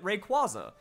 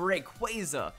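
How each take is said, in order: First: The middle syllable sounds like the start of quartz. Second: The middle syllable sounds like the start of quasar. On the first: "That has that nice qua sound in there, makes sense with words like quasi and quartz" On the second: "you put a little bit of that"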